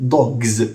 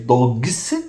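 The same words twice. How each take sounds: First: The word ends in a voiced z sound. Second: The word ends in a voiceless s sound. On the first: The speaker calls it right. "the s of dog is pronounced as z" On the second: The speaker calls it wrong. "it's more difficult to say dogs"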